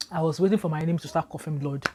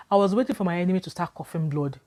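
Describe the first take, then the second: First: Said in the usual way. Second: Said through a laugh; amused at her own naivety; chuckling retelling; laughing at herself. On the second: Real, not acted.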